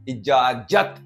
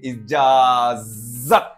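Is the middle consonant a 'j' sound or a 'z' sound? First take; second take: j; z. First: The middle consonant is a 'j' sound. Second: The middle consonant is a 'z' sound. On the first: The speaker calls it wrong. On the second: The speaker calls it right.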